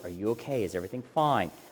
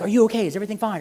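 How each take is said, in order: First: It is said slowly, low and calm. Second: It is said fast, high and anxious. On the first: It helps the listener slow down and settle. The speaker calls it right. "lower your voice" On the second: It makes the listener even more nervous. The speaker calls it wrong. "don't be like, ... you just start going like that"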